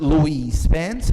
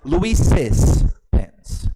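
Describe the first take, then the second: First: The name has no added syllable at the end. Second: The name has an added syllable at the end. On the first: "The first one is" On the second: "we add uh, a syllable to the last one"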